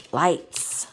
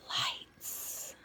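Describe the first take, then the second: First: Said in the usual way. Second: Whispering. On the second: Real, not acted. Whispered title.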